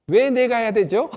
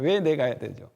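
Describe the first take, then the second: First: Loud, higher, challenging question; defiant son. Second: Said in the usual way. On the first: Retold or imitated. The third son defying his father, loud and challenging. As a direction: push back like a stubborn kid. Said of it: "셋째 아들은 대부분 어떻게 이야기하냐면". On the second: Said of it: "이렇게 항상 물어봐요".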